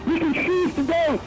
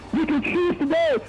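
The two takes are said the same way.

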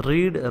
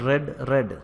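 First: റീഡ് said with a long "ee", like "reed"; present-tense pronunciation. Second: റെഡ് said with a short "e", like the colour red; past-tense pronunciation. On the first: Teacher showing learners how present-tense "read" sounds, റീഡ് with long "ee". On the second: Teacher showing learners how past-tense "read" sounds, റെഡ് with short "e". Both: Shown as a demonstration. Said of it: "ഇതിൻ്റെ pronunciation different ആണ്".

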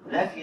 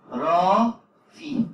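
First: Said in the usual way. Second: رافي dragged out very slowly, louder and rising; رافي held long and loud, ending on a rise; stretched model word. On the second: Shown as a demonstration. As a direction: say رافي very slowly, syllable by syllable, for the class to copy. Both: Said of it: "شايف النطق؟".

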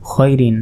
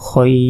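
First: Said in the usual way. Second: খয়র with a long held glide before the final r; elongated pause form. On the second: Shown as a demonstration. Teacher showing the stop, খয়র drawn out long. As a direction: stretch খয়, then close on র. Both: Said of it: "এখানে ওয়াকফ করলে".

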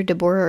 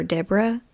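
First: Deborah said as duh-BOR-uh, stress on the middle; pronunciation option. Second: Deborah said as DEB-ruh, stress up front; alternative pronunciation. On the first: Narrator unsure of the victim's name, Deborah as de-BOR-ah. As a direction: say Deborah in three syllables, de-BOR-ah. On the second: Narrator offering the other option, Deborah as DEB-ra. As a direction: say Deborah in two syllables, DEB-ra. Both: Shown as a demonstration. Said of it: "it's either Deborah or Deborah".

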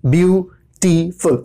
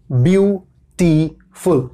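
First: ब्यूटीफुल slowly broken into ब्यू-टी-फुल; slow ब्यूटीफुल with each syllable apart; split into syllables. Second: Said in the usual way. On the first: Shown as a demonstration. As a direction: sound out ब्यूटीफुल one syllable at a time. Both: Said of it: "तीन बार हुआ".

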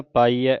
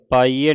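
First: ਪਾਈਐ with an open final "ai"; correct open ending. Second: ਪਾਈਐ with a closed final "ay"; wrong ending demo. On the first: Teacher showing the right reading, ਪਾਈਐ ending in open "ai". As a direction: say ਪਾਈਐ as "paa-ee-eh". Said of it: "ਐੜ ਦਲਾਵਾਂ ਲੱਗੀਆਂ". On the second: Teacher showing what not to read, ਪਾਈਐ ending "ay". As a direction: say ਪਾਈਐ as "paa-ee-ay". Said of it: "ਪਾਈਐ ਨਹੀਂ ਪੜ੍ਹਨਾ". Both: Shown as a demonstration.

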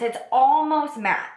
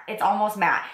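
First: "almost" drawn out and pitched high; emphatic, stretched-out "almost"; stress on almost. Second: Said in the usual way. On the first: Real, not acted. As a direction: lean long and high on "almost". Repeats the claim for emphasis.

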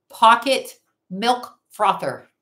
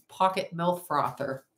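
First: "Pocket milk frother" slow and louder, each word set apart; emphatic word by word. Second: Said in the usual way. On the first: Shown as a demonstration. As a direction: punch Pocket, milk, frother one at a time. Repeats gadget name for effect.

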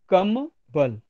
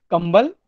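First: कम and बल as two separate words; pause inside कम बल. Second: कंबल said whole, with no break; कंबल as one word. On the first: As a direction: say कम, break, then बल. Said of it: "कम मतलब बहुत कम". (कम और बल के बीच विराम) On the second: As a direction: run कंबल together as a single word. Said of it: "दूसरा कंबल का मतलब". (कंबल एक साथ, बिना रुके) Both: Shown as a demonstration.

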